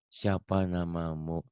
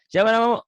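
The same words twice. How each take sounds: First: The question is asked slowly and hesitantly. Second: The question is asked quickly and smoothly. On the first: The speaker calls it wrong. "Jangan kayak gini. ... Kayak gitu kelamaan" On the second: The speaker calls it right.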